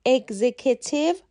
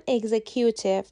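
First: اگزیکیتیو said as "egzekitiv", stress on the second syllable; correct pronunciation. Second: اگزیکیوتیو said as "egzekyootiv", the common mistake; wrong pronunciation. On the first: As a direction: say اگزیکیتیو as "eg-ZEK-i-tiv". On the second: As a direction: say اگزیکیوتیو with "kyoo" in the middle. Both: Shown as a demonstration.

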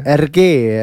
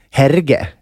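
First: R G said as "air-zhay", silent h; French pronunciation. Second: Herge read the Swedish way, with a sounded H and hard g; childhood pronunciation. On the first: Repeating the co-host's version of the author's name, French pronunciation. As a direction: say R G the French way, ending on a long é. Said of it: "det låter bra när du säger det". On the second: Recalling how they said it as a child, Swedish spelling pronunciation. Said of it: "som man sa när man var liten". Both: Shown as a demonstration.

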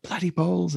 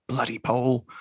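First: Higher-pitched imitation of a won-over officer; lightly acted, high-pitched exclamation of surprise; retold change of heart. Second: RAF officer's gripe, barely acted; lightly voiced complaint about a stolen kill; retold grudging remark. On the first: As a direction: lift it up, as if newly won over. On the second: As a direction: grumble it at ordinary pitch. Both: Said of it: "that moment where he's sort of, like, flipped".

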